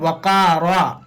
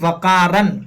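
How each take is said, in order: First: The word ends with a long a sound. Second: The word ends with an n sound. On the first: The speaker calls it right. "यहाँ रुकना कैसे है, वकारा" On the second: The speaker calls it wrong. "लेकिन गलत है"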